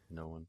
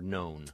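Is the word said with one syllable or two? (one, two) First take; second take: two; one. First: An extra vowel splits the word into two syllables. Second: The word is said as one syllable. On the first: "Yes, known" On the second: "for known"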